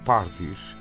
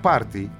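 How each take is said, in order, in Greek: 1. Η λέξη τελειώνει με ήχο s. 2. Η λέξη τελειώνει σε φωνήεν, χωρίς s.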